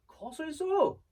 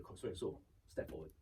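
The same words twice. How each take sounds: First: High, louder push on the repeated order; insistent director. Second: Low, soft echo of an instruction; subdued repeat. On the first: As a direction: imitate a director pressing the host. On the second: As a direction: repeat it quietly, just following orders. Host obediently repeating director's instruction. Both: Retold or imitated.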